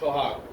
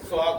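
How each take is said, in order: First: The word begins with an sh sound. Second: The word begins with a plain s sound. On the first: The speaker calls it right. "তখন ওইটা সোহাগ। ও তখন তালেবস্বর রূপ" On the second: The speaker calls it wrong. "তখন কিন্তু সোহাগ হবে না"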